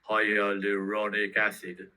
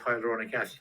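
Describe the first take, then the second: First: It is said in an imitated, advert-style pronunciation. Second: It is said in the speaker's own plain pronunciation.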